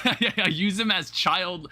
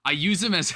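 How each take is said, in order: First: Laughing. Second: Said in the usual way. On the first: Real, not acted.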